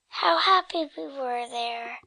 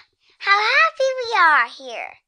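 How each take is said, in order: First: The speaker sounds sad. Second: The speaker sounds really happy.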